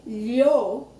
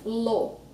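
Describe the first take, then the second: First: Lho as lyo, mid-tongue on the roof; palatal LH. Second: Lo with tongue tip on the roof; plain L. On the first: Teacher demonstrates tongue position, palatal lho. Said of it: "middle of my tongue is touching the roof". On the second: Teacher demonstrates tongue position, plain-L lo. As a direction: say lo with a clean l. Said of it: "tip of my tongue is touching the roof". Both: Shown as a demonstration.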